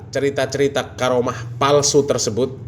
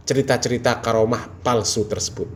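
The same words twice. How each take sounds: The two takes are said the same way.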